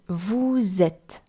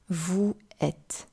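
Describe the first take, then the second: First: A z sound links the two words. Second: The two vowel sounds meet with no link. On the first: The speaker calls it right. "you heard me pronounce" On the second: The speaker calls it wrong. "and not"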